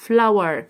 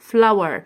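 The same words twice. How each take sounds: The two takes are said the same way.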